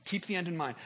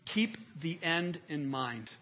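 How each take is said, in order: First: Said in the usual way. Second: Slow emphasis. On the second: Shown as a demonstration. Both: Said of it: "Here it is".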